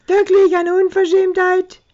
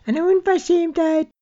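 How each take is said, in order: First: Put-on much higher and louder, aping the old lady; a high squealing mock of the indignant pensioner; mocking imitation. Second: Put-on high, outraged elderly voice; much higher, shrill indignation; indignant old lady. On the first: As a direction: parrot her outrage back at her. Drunk mocking the old couple. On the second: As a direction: sputter it like a scandalised pensioner. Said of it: "erregte sich ein älteres Ehepaar".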